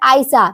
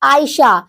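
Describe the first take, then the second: First: The name ends in a short 'sa' sound. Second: The name ends in a long, full 'shah' sound. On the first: A barren woman. "इसमें सा छोटा होता है" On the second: A woman who finds comfort. "Last में शाह जो होता है वो बड़ा होता है"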